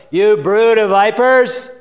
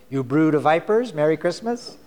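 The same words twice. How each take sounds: First: Booming fire-and-brimstone rebuke; thundering prophet. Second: Lightly ironic holiday wish; mock greeting card. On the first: Acted. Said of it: "John said to the crowds". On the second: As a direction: read it like a cheery card verse. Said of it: "have you ever seen a Christmas card".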